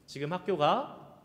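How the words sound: It is said in a Seoul accent. It asks whether the person is going to school now. "서울 사람들이 이렇게 얘기하죠"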